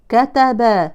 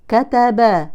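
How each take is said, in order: Both takes have the same delivery.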